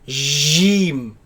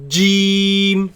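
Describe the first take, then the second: First: It starts with a loose zh sound. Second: It starts with a fully closed j sound. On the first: The speaker calls it wrong. "Some people they loosen this letter and say jeem, zh, and that is incorrect" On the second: The speaker calls it right. "It is a solid letter. The makhraj of it completely closes"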